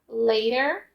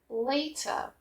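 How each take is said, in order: First: It is said in an American accent. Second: It is said in a British accent.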